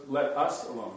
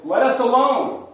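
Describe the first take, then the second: First: Said in the usual way. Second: High, loud protest; crying out. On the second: Acted. Possessed man in the synagogue to Jesus, crying out. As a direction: cry it out sharply, pitched well up. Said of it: "the man, cried out".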